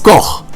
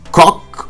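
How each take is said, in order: First: The name is said with a German guttural ending. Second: The name is said to rhyme with English cock. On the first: The speaker calls it right. "the correct pronunciation of Koch is Koch" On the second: The speaker calls it wrong. "or Cock"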